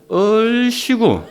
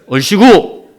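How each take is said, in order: First: It sounds mocking and sarcastic. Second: It sounds cheerful and encouraging. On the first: It means the other person is just fooling around. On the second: It is a genuine cheer of encouragement.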